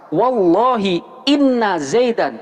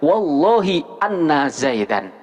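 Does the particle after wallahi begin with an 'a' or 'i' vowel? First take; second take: i; a. First: The particle begins with an 'i' vowel. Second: The particle begins with an 'a' vowel. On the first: The speaker calls it right. "hamzah dari inna ini wajib dibaca kasroh" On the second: The speaker calls it wrong. "tidak boleh dibaca"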